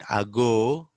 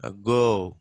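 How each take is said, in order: First: Ago with a long clear "aa" first; heavy opening vowel in "ago"; wrong full vowel. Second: Ago with a tiny first vowel; barely sounded opening in "ago"; weak schwa. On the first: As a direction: say "ago" as "aa-go", drawn out. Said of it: "Not ago". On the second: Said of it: "It has to be". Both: Shown as a demonstration.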